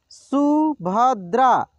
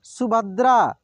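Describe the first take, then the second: First: Subhadra drawn out slowly, syllable by syllable; slow sounding out. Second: Said in the usual way. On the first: Shown as a demonstration. Teacher slowly sounds out Subhadra for students. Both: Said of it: "एक एक मात्रा को अलग अलग करके".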